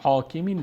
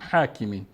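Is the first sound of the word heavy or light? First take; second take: heavy; light. First: The first syllable is pronounced heavy and thick. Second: The first syllable is pronounced light and thin. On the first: The speaker calls it wrong. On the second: The speaker calls it right.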